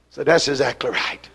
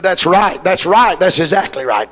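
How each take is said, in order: First: Said in the usual way. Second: Imitating the man. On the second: Preacher mimics the visiting man agreeing, lower voice. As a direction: echo his agreement the way he said it. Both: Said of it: "That's the way he said it".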